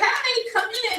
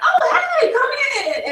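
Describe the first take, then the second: First: It sounds moody and unenthusiastic. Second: It sounds warm and welcoming.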